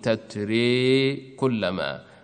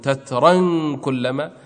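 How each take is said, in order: First: The first word ends in a fronted e vowel. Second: The first word ends in an open a vowel. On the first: "وإذا وقف يميل" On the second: "في حال الوصل لا إمالة عنده"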